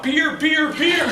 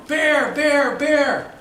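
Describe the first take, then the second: First: Put-on Boston accent. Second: Loud urgent calls; calling out warning. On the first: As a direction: bear said as beer in Boston accent. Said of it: "my Boston accent came out". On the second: Retold or imitated. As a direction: shout the warning across. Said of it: "And I'm going".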